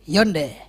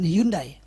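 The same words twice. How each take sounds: First: The name is said with a Korean pronunciation. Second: The name is said with a local Indonesian pronunciation. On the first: The speaker calls it right. "kalau bahasa sana katanya" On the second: The speaker calls it wrong. "bukan Hyundai ngomongnya"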